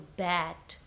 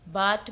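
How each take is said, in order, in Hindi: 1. स्वर 'ae' की सपाट ध्वनि है। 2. स्वर 'ah' की खुली ध्वनि है। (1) "वो ए साउंड देता है" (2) "अ बोला है ... सो इट इज़ इनकरेक्ट"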